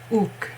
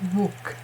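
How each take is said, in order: First: The syllable starts directly with a vowel. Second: The syllable starts with a w sound. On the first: The speaker calls it right. "it's ook" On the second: The speaker calls it wrong. "It's not wook"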